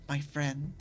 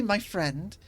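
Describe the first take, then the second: First: Low, soft little gremlin croak on "My friend.". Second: Said in the usual way. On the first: Shown as a demonstration. Streamer demos his gremlin voice to chat, low and soft. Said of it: "It hits that gremlin tone". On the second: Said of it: "hits that specific tone that I use for my gremlin voice".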